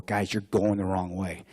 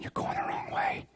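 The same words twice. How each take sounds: First: Said in the usual way. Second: Near-whispered, under the breath; hushed, much softer private remark; inner thought. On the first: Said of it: "Jack and Ty on the radio go". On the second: Acted. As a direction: murmur it to yourself, barely voiced. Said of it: "In my head, I'm thinking".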